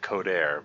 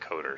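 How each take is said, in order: First: The name ends with an 'air' sound. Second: The name ends with an 'er' sound. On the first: It is read the way it looks written. The speaker calls it wrong. "I still say it looks like Codair" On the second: It is said the way its owner says it. The speaker calls it right. "but you pronounce it Coder"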